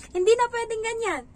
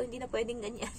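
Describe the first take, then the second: First: Hindi said high and loud; firm declaration. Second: Said in the usual way. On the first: Shown as a demonstration. Nanny declaring to viewers that this must change, loud. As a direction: punch hindi, high and emphatic.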